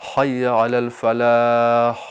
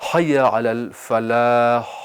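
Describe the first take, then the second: No difference in how they are said.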